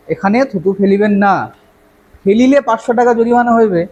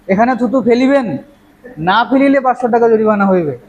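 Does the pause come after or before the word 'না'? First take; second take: after; before. First: The pause comes right after 'না'. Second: The pause comes right before 'না'.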